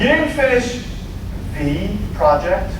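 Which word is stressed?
finish. The stress falls on the word finish. The work was begun but not completed. "I started it"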